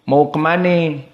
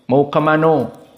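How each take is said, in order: First: It is said in a Betawi accent. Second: It is said in a Minang accent.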